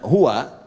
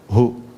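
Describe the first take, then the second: First: The word ends with a final 'a' vowel. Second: The word ends on 'u' without the 'a'. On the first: The reading continues without a stop. "itu kalau nyambung" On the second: The reader stops at this word. "Jadi baca hu itu disingkat dari huwa"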